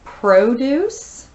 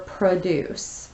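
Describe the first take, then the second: First: "produce" with first syllable stressed, PRO-duce; noun pronunciation. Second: "produce" with second syllable stressed, pruh-DUCE; slow "produce", weak first syllable, weight on the second; verb pronunciation. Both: Shown as a demonstration. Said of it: "It can be pronounced".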